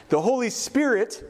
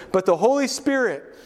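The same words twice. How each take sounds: First: "Spirit" weighted, slower and higher; slow down and land on "Spirit"; "the Holy Spirit" slowly, ending on "Spirit"; slow stress on Spirit. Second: "Holy" lifted high, falling after; stress on Holy. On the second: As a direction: lean on "Holy" in "But the Holy Spirit". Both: Shown as a demonstration. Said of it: "you can almost put in there instead".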